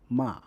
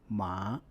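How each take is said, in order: First: The pitch falls sharply from high to low. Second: The pitch rises from mid to high. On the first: "The fourth tone is a sharp, falling tone" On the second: "The second tone is a rising tone"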